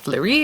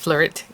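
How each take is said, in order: First: The word ends without a T sound. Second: The word ends with a T sound.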